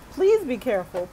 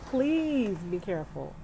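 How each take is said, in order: First: Louder, pressing plea; calling out a friend's safety warning; urgent plea. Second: Slower, gentle and sincere. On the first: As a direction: push the warning out, earnest and loud. Urging friend near Houston floods. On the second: Repeats the plea softly. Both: Real, not acted.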